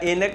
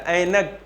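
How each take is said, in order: First: The first vowel is a plain e sound. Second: The first vowel is the ai sound. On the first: The speaker calls it wrong. "एनक नहीं होता" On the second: The speaker calls it right. "ऐ ऐनक होता है"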